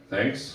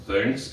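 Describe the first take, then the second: First: Said in the usual way. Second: Low, understated thanks; slightly deeper voice. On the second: Retold or imitated. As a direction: drop your voice a little to answer. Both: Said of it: "in a little bit of a deeper voice".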